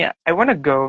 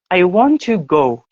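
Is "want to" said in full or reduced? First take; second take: reduced; full. First: "Want to" is run together as "wanna". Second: "Want to" is said as two full words. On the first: This is slang or informal speech. "bahasa Inggris pakainya slang atau yang yang nggak formal gitu, mereka bilangnya gini" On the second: This is the normal, standard way of speaking. "kalau misalnya kita normal English kan bilangnya gini ya"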